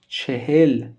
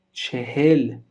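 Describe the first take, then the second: No difference in how they are said.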